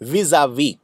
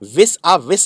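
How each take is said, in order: First: It has a z sound and a silent final s. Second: It has an s sound and a sounded final s. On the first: The speaker calls it right. "ज़ेड sound है इसके अंदर ... ये वाला एस pronounce ही नहीं होता है।" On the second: The speaker calls it wrong. "याद रखिए, विस आ विस नहीं है ये।"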